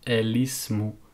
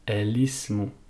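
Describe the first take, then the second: No difference in how they are said.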